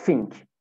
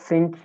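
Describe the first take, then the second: First: "think" said as "fink". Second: "think" starting with a true TH; proper TH. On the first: Teacher shows students the easier substitute, "fink" for "think". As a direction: say "think" starting with F. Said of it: "sesini F ile değiştirebilirsiniz". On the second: Teacher contrasts for students, "think" with TH. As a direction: say "think" with tongue between teeth. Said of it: "Yani think yerine". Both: Shown as a demonstration.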